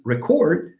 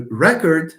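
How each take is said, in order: First: "record" stressed on the second syllable; weight the end of "record", as in the verb. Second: "record" stressed on the first syllable. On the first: Teacher contrasting verb with noun, second-syllable stress on "record". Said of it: "the verb is to record". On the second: Teacher contrasting noun and verb, first-syllable stress on "record". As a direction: hit the start of "record", as in the noun. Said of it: "There is a difference between". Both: Shown as a demonstration.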